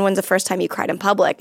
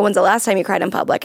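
First: Said in the usual way. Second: Last hit a little harder; stress on last. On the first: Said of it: "I ask a question". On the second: Retold or imitated. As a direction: put the weight on last. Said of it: "then I'll go".

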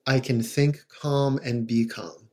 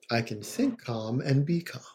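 First: Slow, soft, even repetition; calm mantra. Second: Softer calm mantra. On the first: Therapist demonstrating a mantra to parents, slow and calm. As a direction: say it to soothe yourself. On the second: Therapist repeating the mantra for parents, quieter and calm. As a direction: let the mantra sink in, quieter. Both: Shown as a demonstration. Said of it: "saying it in a calm, repetitive way".

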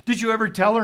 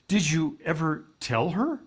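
First: Higher and louder, pressing; emphatic repeat. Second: Said in the usual way. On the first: Retold or imitated. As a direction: press the question home. Repeats his question for emphasis.

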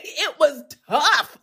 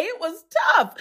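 First: Slow, laughing through it. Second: Said in the usual way. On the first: Real, not acted. Chatting with sister viewers, laughing slowly. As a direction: laugh it off as you say it.

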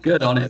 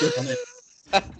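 First: Said in the usual way. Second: Much higher, slow drawn-out falsetto; high mock cheer. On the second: Shown as a demonstration. Cheering a swearing manager in a high, slow mock falsetto. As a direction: stretch it high and slow as a joke.

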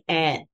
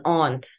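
First: Aunt with a short front a, like ant; American pronunciation. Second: Aunt with a long open ah; own pronunciation. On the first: Giving an example word for puzzled listeners, aunt said like ant. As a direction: say aunt to rhyme with pant. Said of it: "in a way that they will understand". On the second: Giving an example of their own word, aunt said as ahnt. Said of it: "why I talk like this". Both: Shown as a demonstration.

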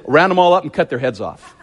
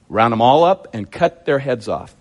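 First: Quick, run-together order; blunt command at a brisk pace; brisk retold command. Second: Deliberate order, lower and spaced out. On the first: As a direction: rattle off the order in one go. First take of retold command. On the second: Retold or imitated. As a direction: weigh out UP and CUT, taking time. Repeats the command for emphasis.

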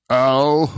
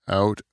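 First: "ow", out with its final T left off, louder; T dropped. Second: Said in the usual way. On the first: Shown as a demonstration. Trying the Japanese trick on a word, T dropped. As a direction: drop the T from out, leaving a loud "ow". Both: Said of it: "take the T out of every".

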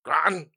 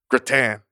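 First: Gratin as "GROT-n", stress on the first syllable; echoed alternative pronunciation. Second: Gratin with stress on the second syllable, "gruh-TAN"; his own pronunciation. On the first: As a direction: echo gratin doubtfully as "GRAH-tn", second vowel swallowed. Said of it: "What am I supposed to say?". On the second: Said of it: "my fucking pronunciation of". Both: Shown as a demonstration.

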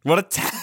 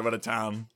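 First: Hammed-up marvelling. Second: Soft, understated aside; quiet remark. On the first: Co-host playing up a New York trip, hammed-up marvelling. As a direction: gush it, stretching out the word town. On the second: Real, not acted. Co-host recalling New York, quiet remark. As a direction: say it softly, almost to yourself. First take, before exaggerating it.

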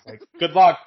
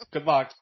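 First: Loud, sarcastic good luck; mocking good luck. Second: Said in the usual way. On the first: Teen mocks his tiny grandmother, loud and sarcastic. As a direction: throw it at her with a scoff.

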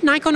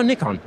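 First: "Nikon" with first syllable like "nigh"; first vowel of "Nikon" as in "eye"; long-i pronunciation. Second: "Nikon" with first syllable like "nick"; first vowel of "Nikon" as in "it"; short-i pronunciation. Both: Shown as a demonstration. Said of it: "Is it Nikon or Nikon".

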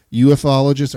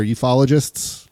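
First: "ufologists" starting "you-eff"; spelled-out U-F pronunciation. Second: "ufologists" run together, no separate F letter; one-word pronunciation. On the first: Host unsure of the word, "ufologists" said as U-F-ologists. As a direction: say "ufologists" as U-F-ologists, letters sounded separately. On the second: Host offering the alternative, "ufologists" said as you-fologists. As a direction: say "ufologists" as you-FOL-ogists. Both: Shown as a demonstration. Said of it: "I guess is how you pronounce it".

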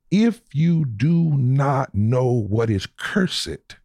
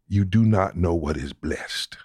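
First: Slow, raised, deliberate "if you do not know what is cursed"; "cursed" drawn out slowly, each word weighted; slow weighty emphasis. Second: Said in the usual way. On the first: Real, not acted. Preacher warning listeners about religion, in a slow raised build-up.

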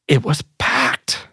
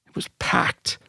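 First: Breathy half-whisper, slow and amazed; hushed awe. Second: Softer, fully whispered repeat; whispered echo. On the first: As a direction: whisper the memory as if still amazed. Awed hushed, unvoiced. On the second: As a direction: let the repeat fall away to a whisper. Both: Real, not acted.

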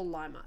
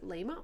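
First: "Lima" with an eye vowel first; "Lima" like the bean; Lima as LIE-ma. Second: "Lima" with a long ee first vowel; "Lima" rhyming with "dreamer"; Lima as LEE-ma. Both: Shown as a demonstration. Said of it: "Is it Lima or Lima?".

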